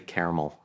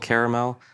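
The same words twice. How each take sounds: First: The word is said with the second vowel dropped. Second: The word is said with three full syllables.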